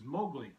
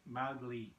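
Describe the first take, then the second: First: The first syllable is said like 'mo'. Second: The first syllable is said like 'mau'. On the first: The speaker calls it wrong. "they pronounce as Mowgli" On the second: The speaker calls it right. "is actually Mowgli, M A U G L E E"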